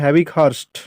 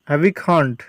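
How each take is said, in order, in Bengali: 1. নামটি 'hurst' ধ্বনি দিয়ে শেষ হয়। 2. নামটি 'khand' ধ্বনি দিয়ে শেষ হয়। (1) "এটাকে বলা হয় হ্যাভিক হার্স্ট" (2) "এটাকে উচ্চারণটা একটু ভুল আছে বাংলায়"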